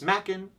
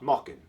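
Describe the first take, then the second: First: The first vowel sounds like the one in 'make'. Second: The first vowel sounds like the one in 'mock'. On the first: The speaker calls it right. "Machen like Kraken" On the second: The speaker calls it wrong. "not Mockin like Dokken"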